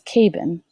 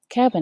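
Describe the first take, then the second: First: The first vowel is long, like 'ay'. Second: The first vowel is short, like in 'cat'. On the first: The speaker calls it wrong. "I'm going to make my A long" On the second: The speaker calls it right. "switch that A to make it short"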